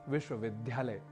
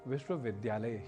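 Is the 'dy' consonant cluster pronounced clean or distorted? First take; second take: distorted; clean. First: The 'dy' cluster is pronounced in a distorted way. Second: The 'dy' cluster is pronounced cleanly as written. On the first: The speaker calls it wrong. "जो कि गलत है।" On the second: The speaker calls it right. "इसका शुद्ध उच्चारण"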